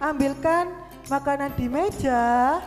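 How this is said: It is said with a questioning tune. It asks whether someone will fetch the food. "Itu kan beda dengan jika tanda tanya"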